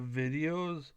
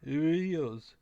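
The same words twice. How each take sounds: First: The word begins with a V sound. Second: The word begins with a B sound. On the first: "Instead of V" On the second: "they say B"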